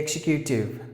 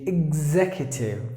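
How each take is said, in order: First: The x is pronounced like ks. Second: The x is pronounced like gz. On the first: It marks non-standard English. The speaker calls it wrong. "Please don't say executive" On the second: It is the standard pronunciation. The speaker calls it right. "It should be executive, like this"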